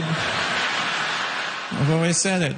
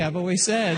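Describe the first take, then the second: First: Slow, lower, self-important drawl; drawn-out pompous repeat. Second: Said in the usual way. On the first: Shown as a demonstration. Comic to crowd, slow lower mock-pompous drawl. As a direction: stretch every word like a pompous local. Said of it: "repeated slowly, pompous".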